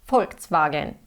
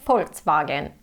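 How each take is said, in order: The two takes are said the same way.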